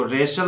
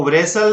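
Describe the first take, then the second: First: रेशल starting on r, "reshal"; correct pronunciation. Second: वरेसल with sounded w before the r; wrong pronunciation. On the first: Teacher correcting pupils, रेशल with silent w. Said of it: "इसको रेशल बोलना है". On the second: Teacher showing what to avoid, वरेसल with w voiced. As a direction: say वरेसल as "v-resal". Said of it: "नहीं बोलना है". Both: Shown as a demonstration.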